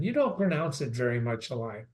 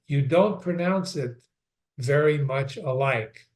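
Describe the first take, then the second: First: Said in the usual way. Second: "don't" and "very" leaned on, slowed down; slow pointed reread. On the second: Shown as a demonstration. Teacher stops to reread the odd line for students, slow and pointed. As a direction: reread "You don't pronounce it very much alike" slowly, stressing "don't". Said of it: "Stop a moment".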